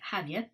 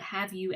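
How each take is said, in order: First: The words are said with weak, reduced vowels. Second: The words are said with full, careful vowels.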